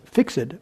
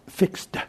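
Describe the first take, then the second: First: The ending is voiced as an extra syllable. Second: The ending blends into a single syllable. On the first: "In Indian English, it's fixed. It's pronounced" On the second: "In American English, ... That E-D is a D"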